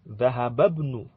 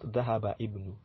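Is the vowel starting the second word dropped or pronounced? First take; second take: dropped; pronounced. First: The words merge, dropping the second word's first vowel. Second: The second word keeps its own first vowel. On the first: The speaker calls it right. "Dhahababnu, not Dhahaba ibnu" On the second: The speaker calls it wrong. "not Dhahaba ibnu"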